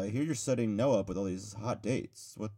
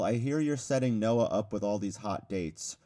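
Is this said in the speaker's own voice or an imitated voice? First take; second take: imitated; own voice. First: It is said in a put-on imitating voice. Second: It is read in the speaker's ordinary voice.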